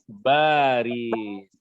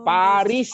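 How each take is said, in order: First: The word begins with a B sound. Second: The word begins with a P sound.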